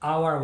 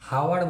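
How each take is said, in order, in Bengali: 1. শব্দটি স্বরধ্বনি দিয়ে শুরু হয়। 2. শব্দটি 'h' ধ্বনি দিয়ে শুরু হয়। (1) "আওয়ার বলছি" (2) "এখানে কিন্তু হাওয়ার বলছি না"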